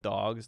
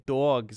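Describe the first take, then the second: First: The word has a standard accent vowel. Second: The word has a New York accent vowel. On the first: "instead of dogs" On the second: "New Yorkers say dogs"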